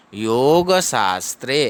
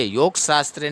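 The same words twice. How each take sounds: First: "योग शास्त्रे" as yo-ga shaas-tre, final a sounded; measured "योग शास्त्रे", every vowel fully voiced; correct reading. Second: Quick "योग शास्त्रे" run together as yok-shaastre; clipped-vowel "योग शास्त्रे", yog with no final a; wrong reading. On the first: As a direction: draw out "योग शास्त्रे" with long o and aa. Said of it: "ऐसे पढ़ेंगे". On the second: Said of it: "नहीं पढ़ना है". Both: Shown as a demonstration.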